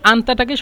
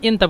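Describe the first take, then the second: First: It is said with the Standard Arabic vowel. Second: It is said with the Egyptian dialect vowel.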